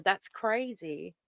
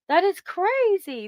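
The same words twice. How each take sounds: First: Said in the usual way. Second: Amazed. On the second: Real, not acted. Reacting to member's eleven months.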